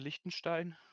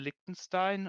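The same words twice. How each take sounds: First: The name has a German pronunciation. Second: The name has an English pronunciation.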